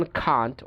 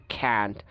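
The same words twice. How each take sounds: First: British "can't" as KAHNT; British pronunciation. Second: American "can't" as KANT; cat vowel in "can't"; American pronunciation. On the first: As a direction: open AH in "can't". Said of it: "ব্রিটিশরা বলে যেমন". (can't-এ আ, British উচ্চারণ) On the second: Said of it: "ওরা বলে". (can't-এ অ্যা, American উচ্চারণ) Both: Shown as a demonstration.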